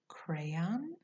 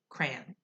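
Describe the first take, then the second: First: The word is said in a careful way. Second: The word is said in a casual way.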